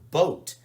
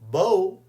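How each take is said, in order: First: The final t sound is clearly pronounced. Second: The final t sound is left off. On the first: The speaker calls it right. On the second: The speaker calls it wrong.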